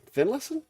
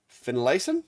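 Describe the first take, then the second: First: Finlayson asked again much higher, rising; second try, incredulous at his own guess; doubtful retry. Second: Tentative questioning try at Finlayson; first careful guess at the name; unsure guess. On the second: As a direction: test the name Finlayson with a small rising question. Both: Real, not acted. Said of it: "Something like that".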